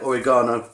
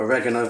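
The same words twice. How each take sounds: First: It is said with a British pronunciation. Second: It is said with an American pronunciation.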